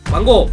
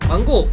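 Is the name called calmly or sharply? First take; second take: sharp; sharp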